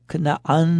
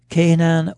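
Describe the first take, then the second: First: The name is said with Hebrew pronunciation. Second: The name is said with English pronunciation.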